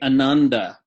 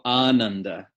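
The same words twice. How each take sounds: First: The first vowel is short. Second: The first vowel is long. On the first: The speaker calls it wrong. "English speakers say ananda. Wrong" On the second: The speaker calls it right. "It's a longer vowel"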